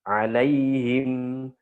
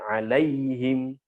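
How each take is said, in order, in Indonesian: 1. Transisi vokalnya halus dan lembut. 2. Transisi vokalnya terputus dengan hentakan.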